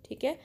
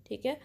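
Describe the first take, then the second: Both takes have the same delivery.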